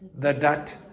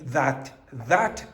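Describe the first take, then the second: First: The first word is reduced to a weak vowel. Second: Both words have a full, strong vowel. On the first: The speaker calls it right. "We say" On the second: The speaker calls it wrong. "We don't say that"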